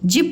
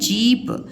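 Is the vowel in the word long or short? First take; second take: short; long. First: The vowel is said short and quick. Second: The vowel is said long and drawn out. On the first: The speaker calls it wrong. "जिप नहीं" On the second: The speaker calls it right. "जीप बोलते हैं"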